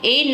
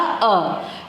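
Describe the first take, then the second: First: The article is said with a full 'ay' vowel. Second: The article is said with a short 'uh' vowel. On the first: The speaker calls it wrong. "मैंने ए नहीं बोला" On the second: The speaker calls it right. "हमने उच्चारण क्या बोला? अ।"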